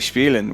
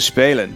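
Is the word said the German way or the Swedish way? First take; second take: German; Swedish. First: It is said with a German-style vowel. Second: It is said with a Swedish-style vowel. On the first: The speaker calls it wrong. "I would say Spielen, ... my German pronunciation" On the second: The speaker calls it right. "So Spelen"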